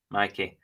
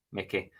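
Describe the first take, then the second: First: Mikey with a long "eye" sound, MY-kee; Mikey said right. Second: Mickey with a short "i", MICK-ee; the wrong name, Mickey as MICK-ee. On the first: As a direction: say Mikey as MY-kee, not MICK-ee. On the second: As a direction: say Mickey as MICK-ee to show the mistake. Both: Shown as a demonstration. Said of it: "Not Mickey".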